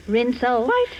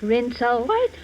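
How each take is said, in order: Both takes have the same delivery.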